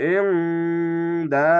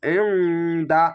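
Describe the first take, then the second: First: ইনদা chanted slowly, nasal ন held; slow recitation. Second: ইনদা said short, no vowel held; quick recitation. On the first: Teacher repeats the word slowly for practice. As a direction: draw out ইনদা. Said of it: "এখানে টান নেই". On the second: Teacher shows the faster reading without madd. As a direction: say ইনদা briskly, no stretch. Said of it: "অনেক দ্রুত পড়তে হবে". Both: Shown as a demonstration.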